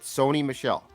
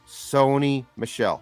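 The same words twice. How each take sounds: First: The name is said at normal speed. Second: The name is said slowly and deliberately.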